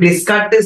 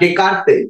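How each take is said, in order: First: The s sounds in the name are pronounced. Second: The s sounds in the name are silent. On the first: The speaker calls it wrong. "এই উচ্চারণটা ডেসকার্টেস না" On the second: The speaker calls it right. "ডি এই এস এর উচ্চারণটা হয় না"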